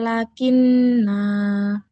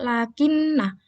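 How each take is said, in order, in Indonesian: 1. Vokal akhir panjang. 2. Vokal akhir pendek. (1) "kalau wakof dibaca" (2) "dibaca wasol"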